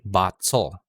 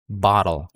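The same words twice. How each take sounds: First: The T is a full, clear T sound. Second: The T is a quick flap like D. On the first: The speaker calls it wrong. "hindi bottle. I'm not using a traditional T" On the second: The speaker calls it right. "It's a flap T sound"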